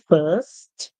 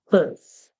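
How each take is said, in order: First: The final t sound is clearly pronounced. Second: The final t sound is left out. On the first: This is the British English pronunciation. "so you hear the t sound at the end of first" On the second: This is the American English pronunciation. "then you will not pronounce the t sound at the end. Instead, you would say first"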